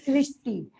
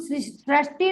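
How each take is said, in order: First: The first consonant is followed by a 'ri' sound. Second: The first consonant is followed by a 'ra' sound. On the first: The speaker calls it right. "हम क्या बोलते हैं, सृष्टि। तो सृष्टि में रा नहीं आता, क्या आता है, री ऋषि" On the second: The speaker calls it wrong. "हम सृष्टि नहीं बोल रहे"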